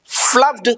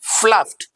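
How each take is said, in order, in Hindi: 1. अंत d ध्वनि के साथ बोला जाता है। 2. अंत t ध्वनि के साथ बोला जाता है। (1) "wrong pronunciation" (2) "the right pronunciation is"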